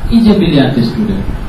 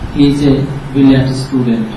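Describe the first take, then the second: First: The word 'he' is dropped, barely pronounced. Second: Every word, including 'he', is fully pronounced. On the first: "হিটা উচ্চারিত হয়ই নাই" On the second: "এরকম বলে না"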